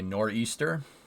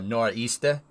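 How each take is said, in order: First: It is said in a general, standard accent. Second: It is said in a local regional accent.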